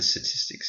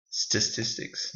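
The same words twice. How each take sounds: First: Said in the usual way. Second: Statistics said slowly, each syllable clear; careful slow statistics, every sound spelled out; careful pronunciation. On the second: Shown as a demonstration. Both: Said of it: "not saying it incorrectly".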